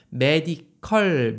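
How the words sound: It is said with Korean loanword pronunciation. "메디컬이라고 한국에서 많이 하지만"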